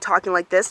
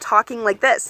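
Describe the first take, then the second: First: The voice is flat and unsmiling. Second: The voice is smiling and enthusiastic.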